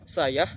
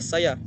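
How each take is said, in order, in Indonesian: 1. Ada bunyi h tambahan. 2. Tidak ada bunyi h tambahan. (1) "Yang salah" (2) "yang benar adalah"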